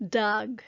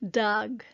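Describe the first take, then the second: First: The word is shortened to one syllable. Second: The word is shortened to one syllable.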